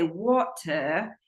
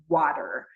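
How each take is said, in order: First: A clear T and no R sound at the end. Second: A D-like flap and an R sound at the end. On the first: "pronounce the T and take off the R on the end" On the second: "in America, most of the time we use a flap"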